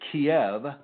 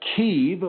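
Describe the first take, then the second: First: The name is said the American way. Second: The name is said the local Ukrainian way. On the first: The speaker calls it wrong. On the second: The speaker calls it right.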